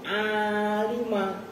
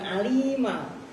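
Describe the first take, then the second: First: The vowel after the L is long. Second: The vowel after the L is short. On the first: The speaker calls it right. "Itu alima" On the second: The speaker calls it wrong. "bukan alima. Kalau baca ya alima ya enggak enak"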